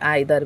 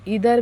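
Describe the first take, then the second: First: The word begins with an 'eye' sound. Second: The word begins with an 'ee' sound. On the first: "और आइदर भी बोलते हैं, दोनों सही है" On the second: "इसको इधर भी बोलते हैं"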